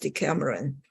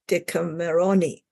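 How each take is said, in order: First: The word ends on a final n sound. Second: The word ends on an extra vowel sound. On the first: This is the English form of the title. "without the E, you would pronounce it as Decameron" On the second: This is the Italian form of the title. "with an E, you would pronounce it as a Decameroni"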